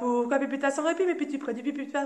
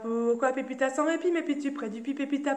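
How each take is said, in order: First: It is said at a very fast pace. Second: It is said at a faster pace.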